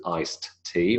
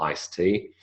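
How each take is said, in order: First: "iced" released, then a separate "tea"; D sounded. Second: "iced tea" said as ice-tea; D elided. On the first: Lecturer wondering about a singer's name, fully sounded "iced tea". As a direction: separate "iced tea" with both stops heard. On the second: Lecturer wondering about a singer's name, elided "iced tea". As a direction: run "iced tea" together with a single T. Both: Shown as a demonstration. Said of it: "we would elide the D".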